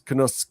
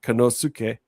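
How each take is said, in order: First: The u in the middle is nearly silent. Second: The u in the middle is fully sounded. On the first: The speaker calls it right. "the U is more silent" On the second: The speaker calls it wrong. "is not Konosuke"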